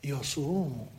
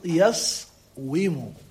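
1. يُنطق yaṣūmu، بواو طويلة. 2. يُنطق yaṣwumu، بمقطع 'wu'. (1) "النطق شنو هو النطق؟" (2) "والأصل"

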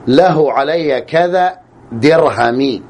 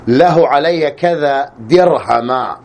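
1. تنتهي الكلمة الأخيرة بحركة قصيرة i. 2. تنتهي الكلمة الأخيرة بحركة قصيرة a. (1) "الجر" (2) "النصب"

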